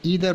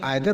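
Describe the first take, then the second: First: It is said the American English way. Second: It is said the British English way. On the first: "American English में ईदर pronounce करते हैं" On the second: "British English में आइदर pronounce करते हैं"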